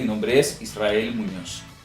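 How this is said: The voice falls at the end.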